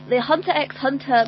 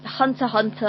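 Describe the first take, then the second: First: The letter X is spoken between the words. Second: No letter X is spoken between the words. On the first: The speaker calls it wrong. "You don't pronounce the X" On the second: The speaker calls it right. "Oh, right"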